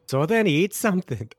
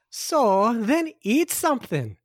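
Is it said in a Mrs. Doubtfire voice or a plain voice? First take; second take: plain; Mrs. Doubtfire. First: It is said without the Mrs. Doubtfire voice. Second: It is said in a Mrs. Doubtfire voice.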